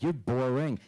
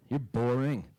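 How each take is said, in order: First: Said in the usual way. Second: Deadpan dad. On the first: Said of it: "be like". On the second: Retold or imitated. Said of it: "And he'd go".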